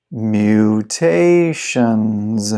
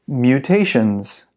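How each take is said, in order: First: Very slow, every syllable drawn out; slow-motion model for repeating; slow pronunciation. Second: Said in the usual way. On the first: Shown as a demonstration. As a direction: stretch the word right out for learners. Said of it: "then I'll read it slow". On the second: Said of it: "I'll read it fast".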